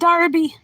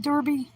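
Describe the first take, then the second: First: It is pronounced with an English accent. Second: It is pronounced with an American accent.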